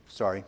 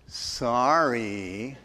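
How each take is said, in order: First: Very low, quiet grudging apology; imitating a child's reluctant sorry; grudging outward obedience. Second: Low, drawn-out eye-roll apology; mock apology dripping with sarcasm; sarcastic. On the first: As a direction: mumble it only because you were told to. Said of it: "mere outward obedience like Janelle". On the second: Shown as a demonstration. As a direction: stretch it out with heavy sarcasm, lifting at the end. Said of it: "you use sarcasm and you roll your eyes".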